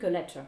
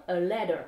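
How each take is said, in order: First: British 'letter' with a clear T; British accent. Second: American 'letter' with a D-like middle. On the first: Teacher compares for learners, British accent on letter. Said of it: "avec l'accent britannique". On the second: Teacher translates une lettre, letter with D sound. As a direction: say "letter" as 'ledder'. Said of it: "mais comme un D". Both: Shown as a demonstration.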